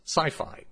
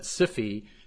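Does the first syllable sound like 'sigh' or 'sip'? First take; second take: sigh; sip. First: The first syllable has a long vowel, like 'sigh'. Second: The first syllable has a short vowel, like 'sip'. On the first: The speaker calls it right. "rhymes with hi-fi and Wi-Fi" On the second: The speaker calls it wrong. "as some pronounce it, sounds like a venereal disease"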